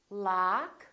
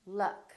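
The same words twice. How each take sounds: First: "Lock" as "lahk", rising; long open "ah" in "Lock"; tense ah vowel. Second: "luck" with a short uh; brief, relaxed vowel in "luck"; neutral uh vowel. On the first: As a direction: stretch "Lock" for learners. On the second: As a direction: model "luck", quick and lax. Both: Shown as a demonstration. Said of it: "with ah and uh".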